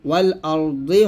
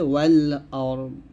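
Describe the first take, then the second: First: The word ends with an added 'i' vowel. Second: The word ends on the bare consonant. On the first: The speaker calls it wrong. "ওয়াল আরদি হবে না" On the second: The speaker calls it right. "থামলে হবে ওয়াল আরদ"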